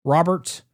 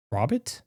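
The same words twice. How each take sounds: First: Said in the usual way. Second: "Robert" shrunk to "Rob't", rising as a question; clipped nickname pronunciation. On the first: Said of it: "I think it's Robert". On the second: Shown as a demonstration. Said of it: "minimize it like that".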